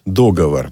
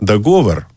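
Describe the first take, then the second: First: The stress is not on the middle syllable. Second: The stress is on the middle syllable. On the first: This is a colloquial, erroneous form. "Это просторечие, это ошибка, это канцеляризм" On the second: This is an unusual but possible form. "можно же еще поставить ударение на среднюю"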